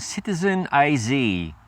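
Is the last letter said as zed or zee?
zee. The letter Z is said as zee.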